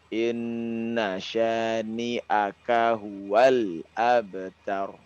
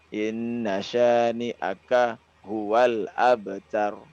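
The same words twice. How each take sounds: First: The words flow together without any stops. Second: The words are broken up by stops. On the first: The speaker calls it right. "menyambung dari huruf ke huruf itu tanpa berhenti" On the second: The speaker calls it wrong. "ini terputus nanti eh, pemenggalan maknanya"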